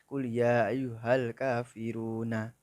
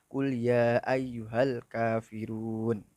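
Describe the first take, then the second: First: The last word ends with a final a vowel. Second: The last word ends on n, no final vowel. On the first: The speaker calls it wrong. "Bukan kul ya ayyuhal kafiruna" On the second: The speaker calls it right. "harus wakof. Al kafirun"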